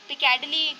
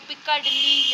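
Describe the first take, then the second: First: The middle consonants are short and light. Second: The middle consonants are doubled and held long. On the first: The speaker calls it right. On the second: The speaker calls it wrong.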